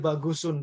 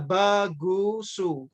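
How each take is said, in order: First: The name ends with an added n sound. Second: The name ends in a plain vowel. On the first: The speaker calls it wrong. "Tidak boleh bagusun" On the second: The speaker calls it right. "Tidak boleh ditanwin"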